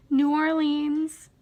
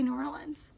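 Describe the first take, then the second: First: New Orleans drawn out slowly, ending Orleenz; saying New Orleans. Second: New Orleans run together quickly, said Norlunz; quick, mumbled New Orleans, like Norlunz; saying New Orleans. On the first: Reading a word list to viewers, New Orleans slowly as Orleenz. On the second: Second-guessing herself to viewers, quick Norlunz. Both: Shown as a demonstration. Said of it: "Or do I say New Orleans".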